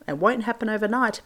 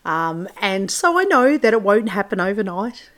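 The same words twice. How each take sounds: First: Bad Kiwi accent on "It won't happen overnight"; deliberately atrocious New Zealand accent, "won't" leaned on. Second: Said in the usual way. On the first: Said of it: "that really atrocious Kiwi accent". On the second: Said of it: "atrocious Kiwi accent".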